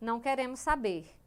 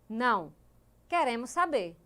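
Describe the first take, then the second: First: The words run together without a pause. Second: There is a pause after the first word. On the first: They do not want to know. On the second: They do want to know.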